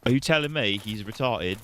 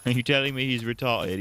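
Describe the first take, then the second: First: Mock British accent. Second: Mock British accent, laughing. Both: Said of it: "half British".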